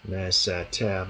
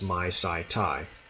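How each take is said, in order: First: The endings are said with an 'eh' vowel. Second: The endings are said with an 'eye' diphthong. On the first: The speaker calls it right. "The reconstructed kune" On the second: The speaker calls it wrong. "I keep saying that wrong because the Erasmian pronunciation is my sai tai"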